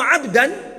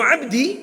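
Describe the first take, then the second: First: The word ends in the vowel a. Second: The word ends in the vowel i. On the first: He is the one receiving the action. "Kalau Abdan pakai fathah" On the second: It carries other meanings. "ada beberapa makna lain pula"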